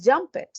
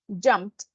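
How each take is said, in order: First: The ending is said as an extra syllable. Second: The ending is just a short t sound. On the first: The speaker calls it wrong. "está escrito como jumped, pero no es jumped" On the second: The speaker calls it right. "Escuchen esa T"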